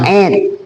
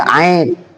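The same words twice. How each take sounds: First: The vowel sounds like a long 'ee'. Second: The vowel sounds like 'ai'. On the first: This is how we say it. The speaker calls it right. "kita mah" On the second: This is how Malaysians and Bruneians say it. The speaker calls it wrong. "Kalau Malaysia Brunei ait"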